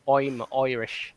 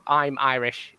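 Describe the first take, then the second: First: Slow Irish "I'm Irish" with I's as "oy"; mock Irish accent. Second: Said in the usual way. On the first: Shown as a demonstration. Panellist showing the Irish trick, mock Irish accent. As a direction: turn each I into "oy", cartoon Irish. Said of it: "replace all the I's with O's". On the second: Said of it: "So instead of".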